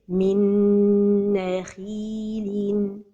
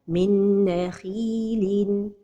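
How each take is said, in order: First: The merged nasal sound is held for a while. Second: The merged nasal sound is kept very short. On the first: The speaker calls it right. "So the right pronunciation is" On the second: The speaker calls it wrong. "The mistake is to pronounce it without a time for the ghunnah"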